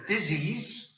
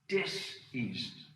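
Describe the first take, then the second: First: The word is said smoothly without a pause. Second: There is a pause between dis and ease. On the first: An illness. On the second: A lack of ease.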